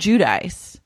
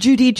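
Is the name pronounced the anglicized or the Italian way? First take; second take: anglicized; Italian. First: The name is pronounced the anglicized way. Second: The name is pronounced the Italian way. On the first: The speaker calls it wrong. "It's not Giudice" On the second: The speaker calls it right. "that's the Italian pronunciation"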